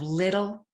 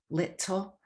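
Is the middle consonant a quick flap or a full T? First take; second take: flap; full T. First: The middle T is a quick tongue flap. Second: The middle T is a full, clear T. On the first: The speaker calls it right. "it's a tongue flap" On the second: The speaker calls it wrong. "We don't say little"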